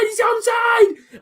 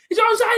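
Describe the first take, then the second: First: High, slow stretched-out yell; drawn-out shout. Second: High, quick excited cry; excited shout. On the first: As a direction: hold every word in triumph. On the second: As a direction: call it out in disbelief. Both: Real, not acted. Celebrating a goal on stream.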